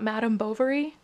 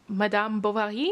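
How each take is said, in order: First: The name is said with an English pronunciation. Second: The name is said with a French pronunciation. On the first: The speaker calls it wrong. "Not Madame Bovary?" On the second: The speaker calls it right. "translated from French by Adam Thorpe, which I guess that means it's technically Madame Bovary?"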